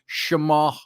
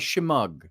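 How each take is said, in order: First: The final 'gh' sound is left silent. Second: The final 'gh' sound is pronounced. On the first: "if you want to pronounce the G H silently" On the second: "as they call it"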